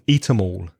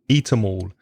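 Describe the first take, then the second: First: The word 'them' is reduced and linked. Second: The word 'them' is reduced and linked.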